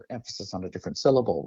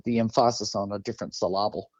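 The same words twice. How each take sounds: First: Said in the usual way. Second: Emphasis and syllable with the second beat stressed, "em-FAH-sis", "sil-LAH-ble"; comical misstressing. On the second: Shown as a demonstration. Host jokes about reading poetry differently, misstressing "emphasis" and "syllable" on second beats. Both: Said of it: "the comical way of looking at it".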